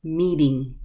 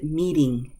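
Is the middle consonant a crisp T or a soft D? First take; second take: soft D; soft D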